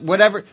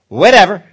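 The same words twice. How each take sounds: First: It is said sincerely, without dismissal. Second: It is said dismissively, out of frustration.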